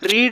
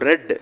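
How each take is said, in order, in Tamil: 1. உயிர் ஒலி நீண்ட 'ee' ஒலி. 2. உயிர் ஒலி குறுகிய 'e' ஒலி. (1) "ரீடு அப்படின்னு வாசிக்கக்கூடாது" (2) "ரெட் அப்படின்னு வாசிக்கணும்"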